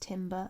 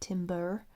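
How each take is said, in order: First: The final r sound is dropped. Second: The final r sound is pronounced. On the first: "with my like English accent, like we don't say the letter R" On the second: "not timber"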